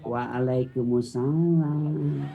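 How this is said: It is said in a soft, lilting voice.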